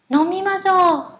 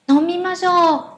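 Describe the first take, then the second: The two takes are said the same way.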